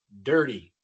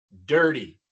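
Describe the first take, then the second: Both takes have the same delivery.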